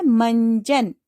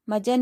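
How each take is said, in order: First: "मंजन" with a nasal n before j; teacher gives students the right form "मंजन" with nasal; correct nasal. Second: "मजन" said without the nasal, as ma-jan; teacher showing the wrong form "मजन" with no nasal; wrong word shown. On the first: सही उच्चारण "मंजन" अनुस्वार के साथ. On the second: गलत उच्चारण "मजन" बिना अनुस्वार. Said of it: "मजन नहीं होता है". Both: Shown as a demonstration.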